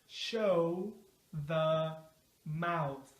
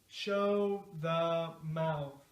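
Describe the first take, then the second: First: The phrase is said slowly and carefully. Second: The phrase is said at a medium speed. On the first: "Let's say it slow at first" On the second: "now a little faster"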